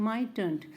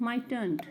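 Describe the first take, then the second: The two takes are said the same way.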